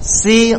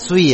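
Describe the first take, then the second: First: The lips are spread, giving a clear si. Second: The lips are rounded, giving a sui sound. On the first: The speaker calls it right. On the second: The speaker calls it wrong.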